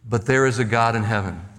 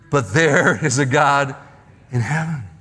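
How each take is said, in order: First: It is said plainly, without added emotional weight. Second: It is said with strong, heartfelt emotional weight.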